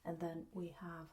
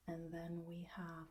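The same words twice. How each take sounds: The two takes are said the same way.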